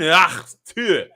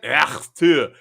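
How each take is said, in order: First: "Ach, tu" hawked from the throat in a mock German accent; louder throaty German accent gag. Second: "Ach, tu" hawked from the throat in a mock Russian accent; a throat-clearing Russian accent jab. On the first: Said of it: "Would you like my German?". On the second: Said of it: "Would you like my Russian accent?".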